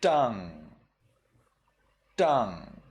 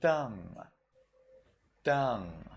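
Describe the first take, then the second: First: Tongue said with a sharp t; sharp tip t in tongue; tongue Burmese style; Burmese pronunciation. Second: Tang with a blunt t; tang Sri Lankan style; Sri Lankan pronunciation. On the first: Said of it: "In Burmese, you read it". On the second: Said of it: "In Sri Lanka, you would read this as". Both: Shown as a demonstration.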